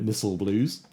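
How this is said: It is said with an American pronunciation.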